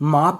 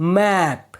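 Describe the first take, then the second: First: The vowel sounds like the one in 'father'. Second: The vowel sounds like the one in 'cat'. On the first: The speaker calls it wrong. "इसे हम माप नहीं बोलते हैं, आ का sound नहीं आता है" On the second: The speaker calls it right. "इसमें भी ए का साउंड आ रहा है।"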